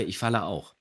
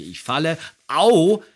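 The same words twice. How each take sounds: First: Said in the usual way. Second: "Ich falle, au" with "au" a sharp, much louder, higher ouch; pained "au". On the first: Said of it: "man denkt immer, ich sage". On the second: Retold or imitated. Actor quoting his old falling line, yelped "au". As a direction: blurt "au" as a yelp of pain. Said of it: "Und auch hier sage ich".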